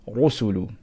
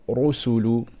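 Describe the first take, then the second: The two takes are said the same way.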